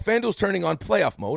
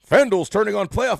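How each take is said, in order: First: It is said in his normal speaking voice. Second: It is said in a put-on announcer voice.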